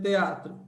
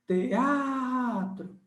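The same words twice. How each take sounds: First: Said in the usual way. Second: TEATRO called out higher with a long held A; shout technique. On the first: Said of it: "vamos usar T D G". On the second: Shown as a demonstration. Teacher showing the hiatus in TEATRO by holding the A, shout technique. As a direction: stretch the A in TEATRO like a drawn-out call. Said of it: "a técnica do grito".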